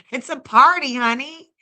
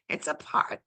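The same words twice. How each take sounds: First: Loud hype party call. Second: Soft secret whisper of the line; whispered party. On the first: Streamer hyping chat that it's a party, loud call. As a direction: belt it like a hostess. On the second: Streamer echoing her party line to chat in a whisper. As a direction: hush it like a secret aside. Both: Real, not acted.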